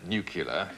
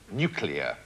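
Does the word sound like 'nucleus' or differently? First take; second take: differently; like nucleus. First: The word does not sound like 'nucleus'. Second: The word sounds like 'nucleus' with an ending. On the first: The speaker calls it wrong. "it's not actually pronounced uh" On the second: The speaker calls it right. "as in the word uh, nucleus of an atom"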